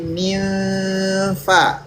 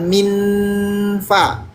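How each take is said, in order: First: The n is blended toward an f. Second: The n is a plain, clear n. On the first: The speaker calls it right. "Kamu baca N, tapi mulutnya F" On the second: The speaker calls it wrong. "Jadi bukan minfa"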